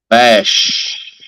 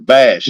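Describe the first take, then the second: First: The final 'sh' sound is clearly emphasized. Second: The final 'sh' is weak, sounding like 'bass'. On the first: The speaker calls it right. "put more emphasis on the H when you say it" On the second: The speaker calls it wrong. "I thought you were saying bass also"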